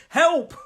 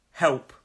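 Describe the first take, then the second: First: High, loud demonstration shout; too-loud cry for help. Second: Said in the usual way. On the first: Shown as a demonstration. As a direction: shout "help" high, half laughing at yourself. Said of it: "I better not say too loud". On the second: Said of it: "Help is when we need assistance".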